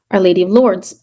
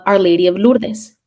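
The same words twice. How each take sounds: First: "Lourdes" in one syllable, LORDZ; English pronunciation. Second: "Lourdes" in two syllables, LOOR-des; Spanish-style pronunciation. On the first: Storyteller correcting the saint's name, "Lourdes" said in English as LORDZ. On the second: Storyteller naming the medallion's saint, "Lourdes" said Spanish-style as LOOR-des. Name said Spanish way, then corrected. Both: Real, not acted.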